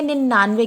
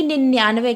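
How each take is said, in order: First: निन्यानवे as ninnaanve, no 'y' after the nn; pronunciation without glide. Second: निन्यानवे as ninn-yaanve, with a 'y' after the nn; contrasted pronunciation with glide. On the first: Teacher repeats the form for students, said without the y-glide. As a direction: double n straight into 'aa' in निन्यानवे. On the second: Teacher contrasts the two forms, pronounced with the y-glide. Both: Shown as a demonstration. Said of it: "ना कि निन्यानवे कहते हैं".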